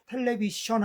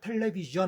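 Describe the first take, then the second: First: The middle consonant is a voiceless sh sound. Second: The middle consonant is a voiced zh sound. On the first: "에스에이치 발음 있죠. 그 무성 자음인데요. 그걸 대신 해보라고 합니다" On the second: "다만 무성음하고 유성음만 다르거든요"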